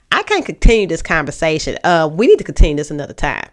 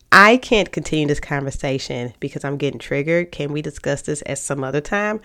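First: Curt, louder, annoyed and fast; with an attitude. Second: Calm and inviting. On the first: Cutting off a partner mid-argument, curt and louder with attitude. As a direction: snap it off like they get on your nerves. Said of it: "The other one was, I got an attitude". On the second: Speaking calmly to a partner to pause the talk, inviting. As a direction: invite them to talk, gently. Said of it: "one is calm, relaxing, you know, it's inviting". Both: Shown as a demonstration.

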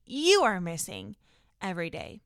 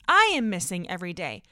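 First: YOU leaned on, then a low fall; stress on YOU. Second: I hit loud, falling away after; stress on I. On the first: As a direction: point at the listener by stressing you. Listener contrasted with herself. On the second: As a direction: punch the opening I, owning it. Herself contrasted with the listener. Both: Real, not acted.

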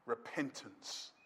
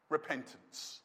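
First: Very low, slow, hushed "Repentance"; solemn repetition. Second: Low, hushed "Repentance"; solemn key word. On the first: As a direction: repeat "Repentance" even more softly, drawn out. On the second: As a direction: drop right down and let "Repentance" land softly. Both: Real, not acted. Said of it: "I'll say it again".

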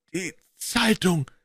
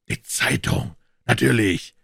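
First: Slow, croaking voice of a half-hanged man. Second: Holmes exclaims. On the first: The revived man croaks from behind them, slow and rasping. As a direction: croak it out weakly. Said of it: "krächzte eine Stimme". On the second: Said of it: "rief Holmes und schlug sich vor die Stirn". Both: A narrator's reading.

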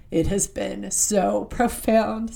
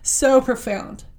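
First: Slow, words catching in a tight throat; fighting back real tears on profound; choked up. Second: SO profound pushed out higher and louder, slow; recovered emphasis. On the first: Sharing how a show moved her, choked up. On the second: Regaining composure to tell viewers, emphatic. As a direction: lean hard on So after pulling herself together. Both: Real, not acted. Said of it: "Sorry, excuse me".

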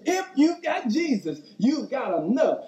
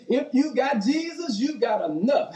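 First: Lifting the crowd, caught up in the moment; excited. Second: Said in the usual way. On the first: Shown as a demonstration. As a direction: pitch leaps up on Jesus, then settles. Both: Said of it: "I don't wanna get too excited".

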